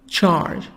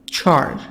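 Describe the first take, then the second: No difference in how they are said.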